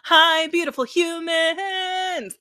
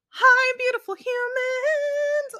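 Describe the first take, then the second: First: It is said in a low-pitched voice. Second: It is said in a high-pitched voice.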